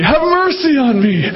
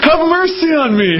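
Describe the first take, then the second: First: Pleading again. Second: Higher, urgent plea for mercy; a mother's raised cry for mercy; pleading mother. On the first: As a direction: sink back into the plea. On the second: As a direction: beg for mercy, voice lifted. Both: Acted. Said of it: "so she kept on saying it".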